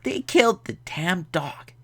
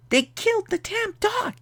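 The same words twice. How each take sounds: First: Raised, put-on voice of disbelief; mock dismay. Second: Extremely high falsetto lament; squeaky mock dismay. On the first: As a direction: lament it in a higher comic voice. Outraged at dog's death in film. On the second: Repeats it, far higher, for effect.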